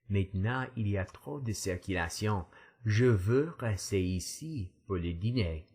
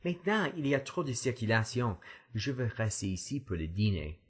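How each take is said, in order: First: It is said at a slow pace. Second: It is said at a fast pace.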